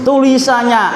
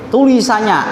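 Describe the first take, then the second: No difference in how they are said.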